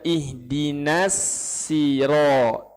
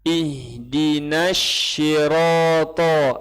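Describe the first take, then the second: First: The second word starts with a plain 's' sound. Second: The second word starts with an 'sh' sound. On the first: "ihdinas itu salah tuh. Itu apa? Sin" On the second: "Apa tuh? Shin"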